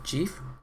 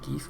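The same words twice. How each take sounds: First: It starts with a soft J sound. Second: It starts with a hard G sound. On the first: The speaker calls it wrong. "not GIF" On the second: The speaker calls it right. "it is called GIF"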